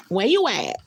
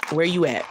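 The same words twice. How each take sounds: First: Higher, louder "Where you at?" calling. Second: Said in the usual way. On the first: Shown as a demonstration.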